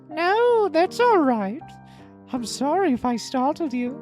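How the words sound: It is said in an obnoxious voice.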